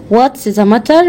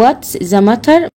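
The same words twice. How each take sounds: First: Said in the usual way. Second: What's the matter said slowly, each word clear; teacher to pupil, spelling out What's the matter slowly; slow, careful model phrase. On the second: Shown as a demonstration. A teacher slowly models What's the matter for her pupil.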